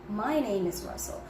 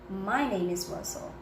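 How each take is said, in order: Both takes have the same delivery.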